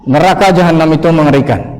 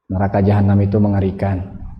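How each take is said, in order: First: The voice is clearer and more vocally expressive. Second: The voice is flat with no vocal expression. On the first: The message still does not fully reach the listener. "kita tambah dengan vokalnya. Misalkan lebih jelas" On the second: The message does not reach the listener's heart. "saya hanya menggunakan kata-kata tanpa vokal yang bagus dan tanpa ekspresi"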